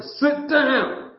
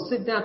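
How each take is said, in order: First: Raised-voice parental command; demonstrated yell. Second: Said in the usual way. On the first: Shown as a demonstration. Father demonstrating how he yells at his son, raised voice. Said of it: "Now, here's me yelling. Yelling, I don't go to the top of voice". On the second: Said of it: "Now, here's me yelling".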